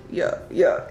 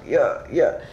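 No difference in how they are said.

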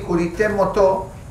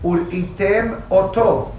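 First: The phrase is said quickly and run together. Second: The phrase is said slowly and carefully. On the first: The speaker calls it wrong. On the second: The speaker calls it right.

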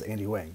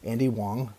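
First: Wang is said the way its spelling suggests. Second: Wang is said differently from its spelling. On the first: The speaker calls it wrong. "It's spelled W-A-N-G, so I always thought it was Andy Wang" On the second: The speaker calls it right. "but it's Andy Wang"

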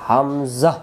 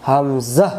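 The two takes are said the same way.

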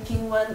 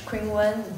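First: The name is said with Chinese pronunciation. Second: The name is said with English pronunciation. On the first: "like my Chinese name" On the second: "if you say in English"

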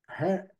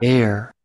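First: The word begins with an audible h sound. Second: The word begins directly with a vowel sound. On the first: The speaker calls it wrong. "Essa pronúncia aqui está parecendo cabelo e não é, e não está certo" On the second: The speaker calls it right. "É ear, parece"

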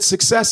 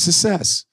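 First: The k sound in the first syllable is pronounced. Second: The k sound in the first syllable is dropped.

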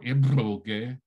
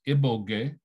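First: It has a lip trill and a plain g. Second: It has a plain b and a plain g.

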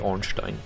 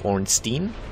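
First: The last syllable sounds like 'stine'. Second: The last syllable sounds like 'steen'. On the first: The speaker calls it right. "pronounced in a German fashion, so you would actually say Ornstein" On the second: The speaker calls it wrong. "So they always say Steen, so that would be Ornstein"

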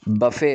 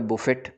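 First: It ends without a t sound. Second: It ends with a sounded t. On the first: The speaker calls it right. "टी silent है" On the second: The speaker calls it wrong. "वो कह रहा होता है बुफ़े या बुफ़ेट"

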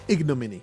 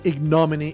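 First: The stress falls on the first syllable. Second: The stress falls on a later syllable. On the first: The speaker calls it right. "Google pronounces it. ... accent on the very first of seven syllables" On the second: The speaker calls it wrong. "I don't think I said that word right"

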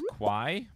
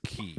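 First: The name sounds like 'kwai', rhyming with 'why'. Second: The name sounds like 'key', rhyming with 'see'. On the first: "I always pronounce his name as Kwai" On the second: "I think it's Key"

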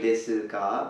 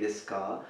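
First: The u in su is fully pronounced. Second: The u in su is dropped. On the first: The speaker calls it wrong. "We don't really say desu ka" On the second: The speaker calls it right. "but we say desu ka"

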